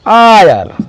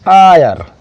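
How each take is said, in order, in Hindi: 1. शब्द स्वर ध्वनि से शुरू होता है। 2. शब्द स्वर ध्वनि से शुरू होता है।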